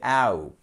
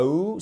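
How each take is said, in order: First: "out" as a drawn-out ow glide; correct diphthong OUT. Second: "ou" as a French oo, no ow glide; wrong pure-vowel OU. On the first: Teacher correcting learners, "out" with a long ow glide. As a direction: let "out" slide from ah to oo. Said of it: "c'est out". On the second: Teacher showing what to avoid, "ou" as French oo. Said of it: "Là, c'est pas ou". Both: Shown as a demonstration.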